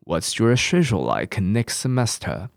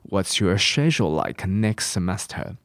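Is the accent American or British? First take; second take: British; British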